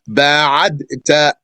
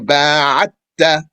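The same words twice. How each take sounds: First: A separate d is heard before the t. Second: The d merges into a doubled t. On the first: The speaker calls it wrong. "that's a dal and a ta" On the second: The speaker calls it right. "merge the dal into the ta"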